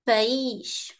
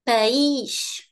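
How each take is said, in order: First: The stress falls on the vowel i. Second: The same.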